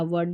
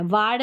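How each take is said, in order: First: वर्ड with a short neutral vowel; वर्ड short, not वार्ड; correct pronunciation. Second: वार्ड said with a long open "aa"; the wrong reading वार्ड, long aa; wrong pronunciation. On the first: Teacher giving students the right short reading. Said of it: "वार्ड नहीं पढ़ना". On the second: Teacher showing students the wrong reading, long aa. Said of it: "नहीं पढ़ना". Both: Shown as a demonstration.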